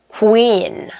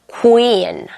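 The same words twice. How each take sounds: The two takes are said the same way.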